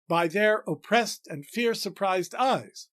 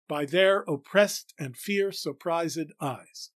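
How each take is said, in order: First: The line is said with nine syllables. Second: The line is said with ten syllables. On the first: The speaker calls it wrong. "Only four feet again" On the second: The speaker calls it right. "If we elide the first ed, that is, don't pronounce it as a syllable, and pronounce the second as a syllable, we get it right"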